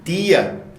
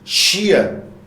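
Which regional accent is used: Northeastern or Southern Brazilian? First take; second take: Northeastern; Southern. First: It is said in a Northeastern Brazilian accent. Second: It is said in a Southern Brazilian accent. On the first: "aqui no Nordeste" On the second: "Lá no Sul, Sudeste"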